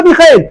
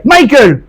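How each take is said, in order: First: Michael said the French way, mee-SHEL; French reading of Michael; Michael as a French name, mee-kel. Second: Michael said the American way, MY-kul; English pronunciation of Michael; Michael with an American accent, MY-kul. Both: Retold or imitated. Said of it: "qu'est-ce qu'il a avec son accent?".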